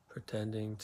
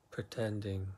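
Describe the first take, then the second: No difference in how they are said.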